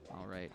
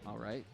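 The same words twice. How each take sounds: The two takes are said the same way.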